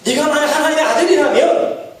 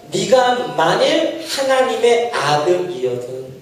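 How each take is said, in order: First: Higher taunting voice with a rising end; mock the challenge with an upturned finish. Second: Slow, deliberate scripture reading; slow, measured reciting of the verse. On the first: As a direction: taunt raised higher, ending on a rise. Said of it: "똑같잖아요". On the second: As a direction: read it out word by word. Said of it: "사십 절에 뭐라고 해요?". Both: Shown as a demonstration.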